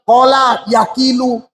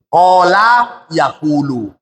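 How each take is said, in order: First: The second word has an i vowel after k. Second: The second word has a u vowel after k. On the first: The speaker calls it wrong. "Jangan kalian bilang" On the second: The speaker calls it right.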